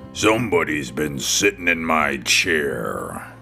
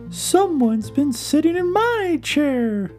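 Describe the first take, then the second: First: It is said in a big, deep, booming voice. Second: It is said in a medium, middle-pitched voice.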